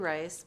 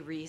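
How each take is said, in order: First: The name is said with an 'eye' vowel. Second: The name is said with an 'ee' vowel. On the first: This is how her family says the name. "My family just goes by the pronunciation Rice" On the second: This is another way people say the name. "but if you say Reese, I'll still respond"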